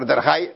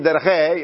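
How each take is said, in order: First: The vowel is pronounced like a patach. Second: The vowel is pronounced as a tsere. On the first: The speaker calls it wrong. "זה מתבטא כמו פתח" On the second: The speaker calls it right. "במקום להגיד"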